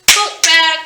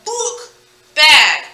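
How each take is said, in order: First: BOOK BAG joined, loud and quicker; punchy, joined-up book bag; pieces put together. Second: BOOK, pause, BAG, each on its own; separate pieces. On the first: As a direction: blend book bag into one word. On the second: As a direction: split book bag into two drawn-out halves. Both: Shown as a demonstration. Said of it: "Putting those pieces together".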